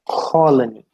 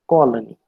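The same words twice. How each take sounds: First: The k has a puff of air. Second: The k has no puff of air. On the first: "They would pronounce it as" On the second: "we pronounce it as"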